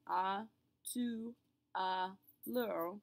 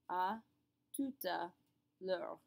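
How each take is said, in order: First: The T of tout is silent. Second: The T of tout is pronounced. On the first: The speaker calls it wrong. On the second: The speaker calls it right.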